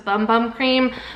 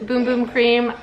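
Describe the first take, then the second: First: The first two words have an 'uh' vowel. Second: The first two words have an 'oo' vowel. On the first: The speaker calls it wrong. "I also originally thought it was" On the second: The speaker calls it right. "this is actually pronounced"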